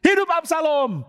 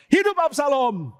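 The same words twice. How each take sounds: First: Teriakan tinggi lantang, pelan; seruan lantang. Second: Seruan tinggi, lebih pelan; seruan lantang. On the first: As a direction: serukan sambil mengangkat nama raja baru. (Husai berseru lantang kepada Absalom: hidup Absalom) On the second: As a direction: ulangi seruan dengan mantap. (Husai mengulang seruan kepada Absalom, tinggi dan lambat) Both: Acted. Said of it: "dia langsung teriak".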